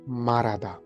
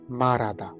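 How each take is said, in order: No difference in how they are said.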